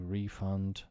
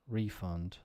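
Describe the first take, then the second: First: The stress is on the second syllable. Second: The stress is on the first syllable. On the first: It is used as a verb. "to refund" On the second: It is used as a noun. "think of it now as nouns"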